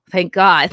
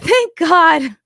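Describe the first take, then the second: First: Said in the usual way. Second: Higher, laughing through the words; laughing relief. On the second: Real, not acted.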